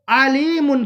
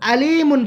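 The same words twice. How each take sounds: First: The word begins with a throaty pharyngeal ayn sound. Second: The word begins with a plain glottal stop sound. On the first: God is all-knowing. The speaker calls it right. "इसका मतलब होगा अल्लाह बहुत जानने वाला है" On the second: God is painful. The speaker calls it wrong. "आइन को अपने मखरज से न पढ़े बल्कि आइन को हमजा के मखरज के साथ पढ़े"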